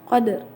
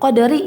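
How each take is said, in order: First: A faint partial vowel follows the final r. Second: The final vowel is pronounced fully. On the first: "Yang qadarinya itu disebut ar-rum gitu. Dibacanya qadr gitu" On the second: "qadari ya biasanya jadi qadr"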